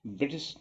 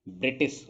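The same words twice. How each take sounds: First: ब्रिटिश with a vibrating "brr" start; barely any i after br in ब्रिटिश; wrong बृ pronunciation. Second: ब्रिटिश with a clear "bri" start; plain i after br in ब्रिटिश; correct "ब्रि" pronunciation. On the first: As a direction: say ब्रिटिश as बृटिश. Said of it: "ब्रिटिश नहीं होता". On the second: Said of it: "ब्रिटिश होता है". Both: Shown as a demonstration.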